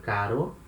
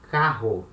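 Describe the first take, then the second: First: "caro" with one light tapped R; feeble R. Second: "carro" with the double R as an H; hard R. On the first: Teacher giving the mid-word example, "caro" with a feeble tapped R. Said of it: "a feeble sound". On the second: Teacher giving the double-R example, "carro" with a hard H sound. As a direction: say "carro" with an English H in the middle. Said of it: "another sound is a hard sound". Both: Shown as a demonstration.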